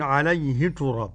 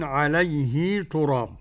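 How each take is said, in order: First: The vowel after the h is kept short. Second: The vowel after the h is lengthened. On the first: This is the other readers' reading of the verse. "بالقصر كده" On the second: This is one traditional reading of the verse. "قرأ ابن كثير بصيغة الهاء"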